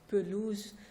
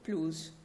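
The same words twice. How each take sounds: First: A short vowel is heard after the first consonant. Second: No vowel is heard after the first consonant. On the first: "you can say pelouse" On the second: "so without the S W A being present"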